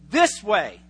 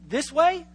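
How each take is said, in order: First: It is said firmly, with confidence. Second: It is said as a question. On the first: The speaker knows the direction. "they say it with a note of confidence" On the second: The speaker is asking whether it is the direction. "you pick up that they're asking the question"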